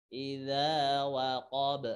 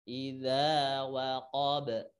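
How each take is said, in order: The two takes are said the same way.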